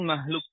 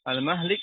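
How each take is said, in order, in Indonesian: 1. Vokal setelah h adalah u. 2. Vokal setelah h adalah i. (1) "wa dhammu" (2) "ikut wazan maf'il"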